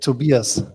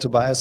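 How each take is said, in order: First: The name is pronounced the German way. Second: The name is pronounced the American English way. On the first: "in Germany you say Tobias" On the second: "the common pronunciation in the in the U S A"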